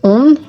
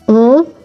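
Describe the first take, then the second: First: A vowel followed by a separately pronounced n. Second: One nasal vowel with no separate n sound. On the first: The speaker calls it wrong. "The big, big, big mistake to avoid is pronouncing the letters separately" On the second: The speaker calls it right. "That N in the nasal sound is not pronounced"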